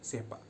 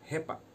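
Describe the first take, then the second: First: The word begins with an s sound. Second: The word begins with an h sound. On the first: This is the standard form of the word. "Kalau di daerah formal eh, language itu kami saya menyebutnya dengan sepa" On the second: This is how one village says the word. "Kalau di desa Patololong itu mereka menyebutnya dengan kata hepa"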